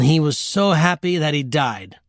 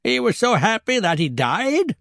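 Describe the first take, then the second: First: Said in the usual way. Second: High, disbelieving question rising on "died"; incredulous echo. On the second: Acted. Grandmother questioning the absurd death, incredulous echo. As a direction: repeat it back in high-pitched disbelief.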